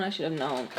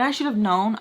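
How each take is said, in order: First: Trailing off softly; quiet. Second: Said in the usual way. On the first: Real, not acted. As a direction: let it fade to a sigh. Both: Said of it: "repeated with fading".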